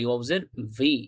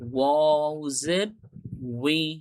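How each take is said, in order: First: The final syllable begins with a v sound. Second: The final syllable begins with a rounded w sound. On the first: The speaker calls it wrong. "এটা অনেকে আমরা করি বি পড়ি, ... এরকম হবে না।" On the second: The speaker calls it right. "মানে ওর উচ্চারণটা করতে হবে"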